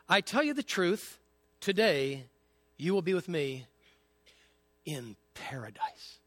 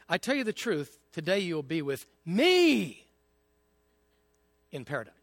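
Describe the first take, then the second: First: The stress falls on paradise. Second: The stress falls on me.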